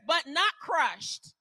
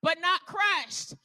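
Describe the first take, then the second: First: Slow, with stress on not; slow emphasis. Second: Drawn out, stress on not; slower again. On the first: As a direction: say each word deliberately. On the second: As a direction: let it sink in. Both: Shown as a demonstration. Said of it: "listen to what the word says".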